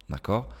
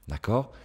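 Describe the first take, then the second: The two takes are said the same way.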